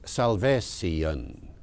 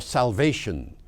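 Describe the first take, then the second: First: "salvation" slowly as sal-vay-see-un; OP -tion ending. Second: Said in the usual way. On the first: Shown as a demonstration. Lecturer gives another old example, "salvation" said sal-vay-see-un. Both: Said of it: "pronounced salvation".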